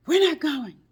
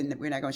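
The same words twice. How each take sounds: First: High, loud panicked cry; frantic quote. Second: Said in the usual way. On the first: Retold or imitated. Friend on the phone after a crash, panicked cry. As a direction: blurt it out in alarm. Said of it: "No, she didn't say, "We're not going". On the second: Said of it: "No, she didn't say".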